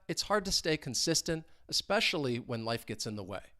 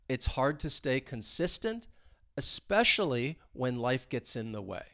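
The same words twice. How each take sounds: First: The sentence is spoken at a normal pace. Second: The sentence is spoken at a slow pace. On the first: "Let's say it at a normal speed" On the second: "So slowly"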